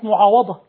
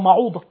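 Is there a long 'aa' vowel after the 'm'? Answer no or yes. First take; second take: yes; no. First: A long 'aa' vowel follows the 'm'. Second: No long vowel follows the 'm'. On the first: The speaker calls it right. "كلمة معاوضة" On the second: The speaker calls it wrong. "نطقها معوضة"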